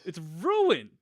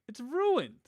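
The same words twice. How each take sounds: First: Said in the usual way. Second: Mock tragic wail. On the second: Mock despair over broken recording.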